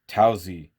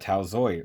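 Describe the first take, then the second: First: The name ends with an 'ee' sound. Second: The name ends with an 'oy' sound. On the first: The speaker calls it right. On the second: The speaker calls it wrong.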